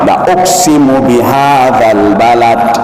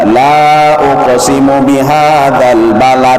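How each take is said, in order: First: The vowel of 'la' is kept short. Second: The vowel of 'la' is drawn out long. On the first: I surely swear by this city. "tapi bacaannya apa?" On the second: I do not swear by this city. "bacaannya itu tidak panjang, tidak"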